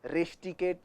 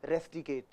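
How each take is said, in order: First: "रेस्टिकेट" said as resh-ti-kate; sh in place of s in "रेस्टिकेट"; wrong "sh" sound. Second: "रेस्टिकेट" as res-ti-kate, soft; plain s in "रेस्टिकेट"; correct pronunciation. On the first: Teacher showing what not to say, resh mispronounced. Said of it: "नहीं". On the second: Teacher giving the correct word, careful pronunciation. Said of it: "English का word है". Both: Shown as a demonstration.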